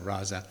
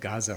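First: The name begins with a guttural R-like sound. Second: The name begins with a hard G sound. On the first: "That's how you say it in Arabic" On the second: "2 weeks ago, I would have said Gaza"

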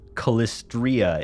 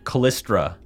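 First: The name ends in 'stria' with an 'ee' sound. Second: The name ends in 'stra' with no 'ee' sound. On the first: The speaker calls it right. "is the correct pronunciation. There's an I in there" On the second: The speaker calls it wrong. "I've been saying words wrong"

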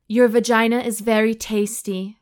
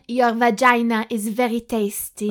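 First: It is read in the reader's plain accent. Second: It is spoken in a put-on French accent. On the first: The speaker calls it wrong. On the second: The speaker calls it right.

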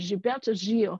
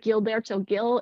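First: The name is said with Brazilian Portuguese pronunciation. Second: The name is said with English pronunciation. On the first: "in Brazil they pronounce it Gilberto Gil" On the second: "It sounds like [name] in English"

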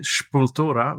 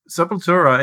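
First: The name is said in a Madeiran accent. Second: The name is said in a plain accent.

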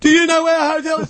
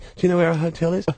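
First: The question is said at a loud volume. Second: The question is said at a normal, soft volume.

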